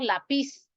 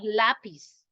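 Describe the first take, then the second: First: The stress is on the last syllable. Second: The stress is on the first syllable. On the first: The speaker calls it wrong. "No decimos lápiz" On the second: The speaker calls it right. "acentuada también en la penúltima sílaba"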